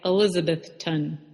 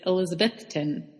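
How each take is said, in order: First: The stress falls on a syllable the speaker later rejects. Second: The stress falls on the syllable the speaker accepts. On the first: This is how newcomers say the town's name. The speaker calls it wrong. "we were calling it Elizabethton" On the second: This is how locals say the town's name. The speaker calls it right. "but it's Elizabethton"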